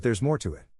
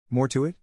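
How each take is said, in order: First: Said in the usual way. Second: MORE TO IT thrown back as a higher, rising question; hissed disbelief. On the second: A narrator's reading. Wife challenging her husband's excuse, mildly indignant rising echo. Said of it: "I hissed".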